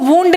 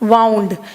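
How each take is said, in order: First: The vowel is long, as in 'moon'. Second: The vowel is a glide, as in 'cow'. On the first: The speaker calls it wrong. "इसको वूंड नहीं पढ़ोगे" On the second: The speaker calls it right. "This is वाउंड"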